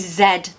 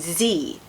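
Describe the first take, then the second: First: The letter is said the British way. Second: The letter is said the American way. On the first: "the letter Z in British English" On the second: "In American they say Z"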